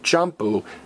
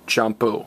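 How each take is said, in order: First: The stress is on the first syllable. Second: The stress is on the last syllable. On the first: The speaker calls it wrong. "don't stress the next to last vowel, don't say champú" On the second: The speaker calls it right. "stress me, champú"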